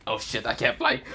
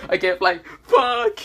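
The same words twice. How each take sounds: First: Said in the usual way. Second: Louder, higher panicked cry; panicking. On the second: Acted. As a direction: freak out as it sinks in. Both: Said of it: "he said".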